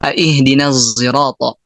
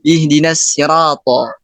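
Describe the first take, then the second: First: Sirata begins with a thick z sound. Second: Sirata begins with a plain s sound. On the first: "zai yang dia tebal" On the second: "Itu pakai sin"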